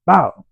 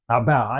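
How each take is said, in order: First: Slap sound effect. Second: Said in the usual way. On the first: Retold or imitated.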